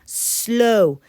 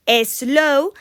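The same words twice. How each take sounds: First: "slow" drawn out, starting straight on the S; no E before "slow", S glued to the L; correct English pronunciation. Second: "slow" wrongly split into two syllables, e-slow; Spanish-speaker mispronunciation. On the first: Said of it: "Eso sería". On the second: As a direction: add a Spanish E before the S of "slow". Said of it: "siempre acabamos diciendo". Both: Shown as a demonstration.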